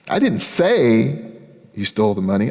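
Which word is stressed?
say. The word say carries the main stress. The speaker only thought it. "I was thinking it. I didn't tell anybody"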